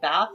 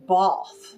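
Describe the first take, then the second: First: The word is said with an American accent. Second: The word is said with a posh British accent. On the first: "like Americans say bath" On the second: "they pronounce it Bath"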